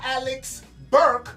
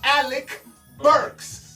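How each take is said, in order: First: The surname ends without an s sound. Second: The surname ends with an s sound. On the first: The speaker calls it wrong. "not Alex Burke" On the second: The speaker calls it right.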